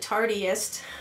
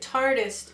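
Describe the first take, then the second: First: The name is said like the word 'tardiest'. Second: The name is said to rhyme with 'artist'. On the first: The speaker calls it wrong. "I pronounced it wrong when I was calling it the Tardiest" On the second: The speaker calls it right. "Tartist is like artist"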